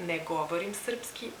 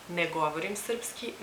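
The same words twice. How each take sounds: The two takes are said the same way.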